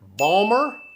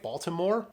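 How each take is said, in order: First: The word is squeezed into two syllables. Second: All three syllables are said in full. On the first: "You will hear it Balmer, B A L M E R" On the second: "it's B A L T I M O R E"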